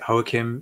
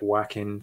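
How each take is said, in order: First: The name is pronounced the Spanish way. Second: The name is pronounced the English way. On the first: "I'm going with the Spanish pronunciation" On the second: "some people pronounce it"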